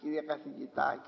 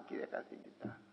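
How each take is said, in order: First: Lower, respectful "Κύριε καθηγητά" with stress on "κύριε"; deferential address. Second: "Κύριε καθηγητά" whispered, breathy with reverence; awed whisper. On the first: Preacher showing how we address the professor, deferential. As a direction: say "Κύριε καθηγητά" humbly, head bowed. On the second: Preacher mimicking reverent whisper to the professor. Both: Shown as a demonstration. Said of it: "σε πιο κύριο καθηγητά".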